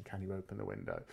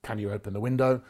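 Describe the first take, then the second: First: CAN YOU OPEN THE WINDOW as a soft question; upward inflection question. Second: CAN YOU OPEN THE WINDOW as a loud, level order; downward inflection command. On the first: Demonstrating a question as against a command, softer questioning inflection. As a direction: ask CAN YOU OPEN THE WINDOW much more softly, as a request. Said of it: "An upward voice inflection is a question". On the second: Demonstrating a command to a visitor, downward inflection. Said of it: "A downward voice inflection is a command". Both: Shown as a demonstration.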